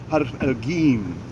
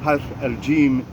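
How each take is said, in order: First: It is said with a hard g sound. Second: It is said with a soft j sound.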